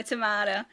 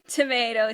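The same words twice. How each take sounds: First: Tomato said tuh-MAH-duh, broad A; tomato with the flat open A vowel. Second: Tomato said tuh-MAY-doh, long A; Tomato with the American long A vowel. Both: Shown as a demonstration. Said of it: "same thing".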